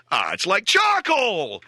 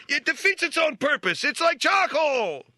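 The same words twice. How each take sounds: First: Put-on whiny kid. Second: Much higher, slow, strained tough-guy imitation of "It's like charcoal!"; Robert De Niro. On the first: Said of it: "ten-year-old kid flipping a steak around going". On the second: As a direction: ham up a Raging Bull boxer's complaint. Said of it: "Like Robert De Niro in Raging Bull".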